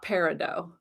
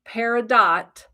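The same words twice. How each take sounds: First: The final T is left silent. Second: The final T is clearly pronounced. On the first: The speaker calls it wrong. "not peridot, with a silent T" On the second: The speaker calls it right. "that is how it's pronounced"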